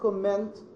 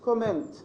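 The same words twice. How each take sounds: First: The middle consonant is doubled and held longer. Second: The middle consonant is short and single. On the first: The speaker calls it wrong. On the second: The speaker calls it right.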